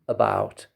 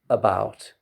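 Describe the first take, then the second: Both takes have the same delivery.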